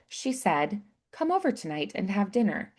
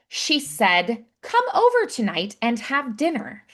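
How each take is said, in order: First: It is said in a softer, subdued way. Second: It is said with strong, emphatic energy.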